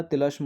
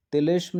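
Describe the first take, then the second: First: तिलस्म with a short a in the middle, "tilasm"; तिलस्म with a light short a after l; तिलस्म बीच में अ के साथ; correct form said. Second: तिलिस्म with an i in the middle, "tilism"; तिलिस्म with a full i after l, shown as wrong; तिलिस्म बीच में इ के साथ; wrong form said. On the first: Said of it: "होता है". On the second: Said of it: "नहीं होता". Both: Shown as a demonstration.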